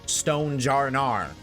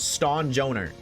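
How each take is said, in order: First: The middle part sounds like 'jar'. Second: The middle part sounds like 'joe'. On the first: The speaker calls it wrong. "not Stone Jarnar" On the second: The speaker calls it right. "That is Stone Joner"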